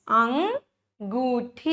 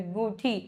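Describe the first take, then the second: First: अंगूठी said very slowly, each syllable stretched; slow drawn-out word. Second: Said in the usual way. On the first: Shown as a demonstration. Teacher slowly modelling a word for children. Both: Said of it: "क्या है ये?".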